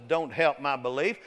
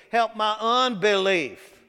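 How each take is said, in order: First: Said in the usual way. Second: "unbelief" drawn out, higher and louder; slow down and punch "unbelief"; stress on unbelief. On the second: Acted. Preacher correcting belief to unbelief, "unbelief" stressed high and slow.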